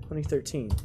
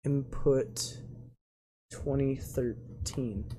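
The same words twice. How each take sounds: First: Said in the usual way. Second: Softer, slow and drawn out; slow sounding-out. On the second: Real, not acted. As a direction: spell it out slowly while entering it. Slowly typing the input.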